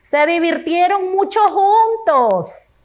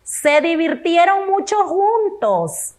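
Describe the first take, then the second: First: Higher, "mucho" stressed with a falling tune; expressive reading. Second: Higher and slow, "mucho" stressed and falling; expressive reading. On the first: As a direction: read "Se divirtieron mucho juntos" with delight. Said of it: "Vamos con la última". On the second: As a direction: read it again, savouring "mucho". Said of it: "Otra vez". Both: Shown as a demonstration.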